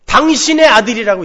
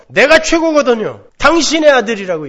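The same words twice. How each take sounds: First: 당신의 stressed, loud and falling; cold disowning. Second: Higher, louder, 당신의 hit hard and falling; smug contempt. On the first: Elder son disowning his brother to the father, cold contempt. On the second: Elder son boasting and disowning his brother, smug contempt. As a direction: sneer that he is no brother of yours. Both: Retold or imitated. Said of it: "이야기를 해요".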